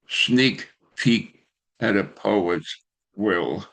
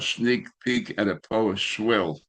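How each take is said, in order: First: The title is said at a careful, even pace. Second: The title is rushed, with the words run together.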